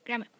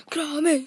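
First: Said in the usual way. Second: Shout. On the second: Real, not acted. Calls out to start game.

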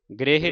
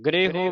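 First: ਗ੍ਰਹਿ said as gre-he; the misreading of ਗ੍ਰਹਿ, closing in -he; mistaken e ending. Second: ਗ੍ਰਹਿ said as gre-ho; rounded ending on h. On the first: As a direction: end ਗ੍ਰਹਿ on an unrounded e. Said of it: "ਗ੍ਰਹਿ ਨਹੀਂ ਪੜ੍ਹਨਾ". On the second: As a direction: end ਗ੍ਰਹਿ on a short rounded o. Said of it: "ਹਾਹੇ ਨੂੰ ਔਂਕੜ ਲੱਗਾ". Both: Shown as a demonstration.

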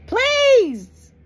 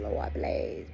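First: A high, loud wailing please; mock desperate cry. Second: Whispered, begging please; mock whispered plea. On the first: Sinner mocked for begging God, wailing cry. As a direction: burst out in a hammed-up desperate shriek. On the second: Sinner mocked for begging God, whispered plea.

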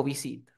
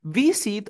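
First: "visit" stressed on SIT; stress on last syllable. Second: "Visit" stressed on VI; stress on first syllable. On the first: Teacher offering a choice, "visit" with stress at the end. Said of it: "La fuerza de voz está al final". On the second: Teacher offering a choice, "Visit" with stress up front. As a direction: punch the VI of "Visit". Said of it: "La fuerza de voz está". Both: Shown as a demonstration.

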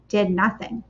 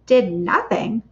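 First: Said in the usual way. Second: Did nothing? with a rising disbelieving tune; incredulous question. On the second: Shown as a demonstration. Narrator echoing the story in surprised disbelief.

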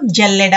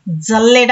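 First: జల్లెడ begun with a palatal ja; present-day pronunciation. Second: జల్లెడ begun with dza; old pronunciation. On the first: Teacher showing how it is said now, జల్లెడ as jalleda. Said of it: "ఇప్పుడు జల్లెడ అని". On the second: Teacher showing how people once said it, జల్లెడ as dzalleda. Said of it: "అనేవాళ్ళు". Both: Shown as a demonstration.

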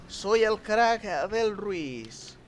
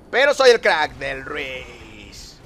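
First: Higher, very slow mock brag; drawn-out, lifted comic voice; put-on boasting voice. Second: Louder start, slow falling finish; slow, swaggering brag with a long tail; drawn-out boast. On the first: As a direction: repeat the brag in a silly stretched voice. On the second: Pretend. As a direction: boast it, stretching RUIZ long and downward.

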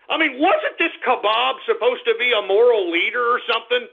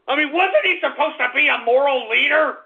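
First: Said in the usual way. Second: Higher-pitched indignant question; outraged. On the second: Real, not acted. Host questions a so-called moral leader, outraged. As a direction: push the question up in outraged disbelief.

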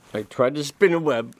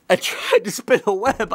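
First: Said in the usual way. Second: Pushing the words out as if trying hard to spin silk; mock straining effort. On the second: Comedian acting out trying to spin a web, mock strained.

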